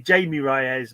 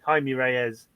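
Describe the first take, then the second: First: The name begins with an English J sound. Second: The name begins with an H sound. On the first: The speaker calls it wrong. "I would say Jamie Reyes, but it's not" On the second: The speaker calls it right. "It's Jaime, Jaime Reyes"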